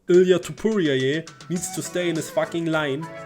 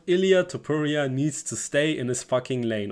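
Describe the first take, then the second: First: It is read in an imitated Australian accent. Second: It is read in the speaker's own plain accent. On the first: "That's my attempt at an Australian Volk accent" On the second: "And I quote"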